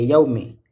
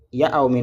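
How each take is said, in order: First: Yaoumi with Ya and ou run together fast into one quick glide, yau-mi; right reading. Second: Yaoumi with a long drawn aa, syllables pulled apart as Ya-a-oumi; wrong reading. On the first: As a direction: join the Ya and the ou of Yaoumi quickly, as the soukoun demands. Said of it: "non, c'est Yaoumi". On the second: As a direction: stretch the Ya of Yaoumi and split it from the oumi. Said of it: "il ne faut pas dire Yaoumi". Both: Shown as a demonstration.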